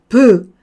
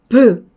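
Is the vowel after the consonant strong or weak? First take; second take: strong; strong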